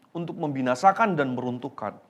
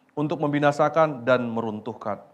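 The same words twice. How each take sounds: No difference in how they are said.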